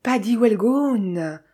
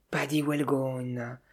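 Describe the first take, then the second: First: Slow, drawn-out exclamation of recognition; ashamed yet triumphant outburst; triumphant cry. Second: Low, soft and slow, dismayed; muffled repeat. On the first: Narrator recognises the detective, cries out half ashamed, half triumphant. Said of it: "à la fois honteux et triomphant". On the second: Sophie, crushed and dismayed, repeats the name in a low muffled voice. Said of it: "répéta sourdement Sophie". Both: A narrator's reading.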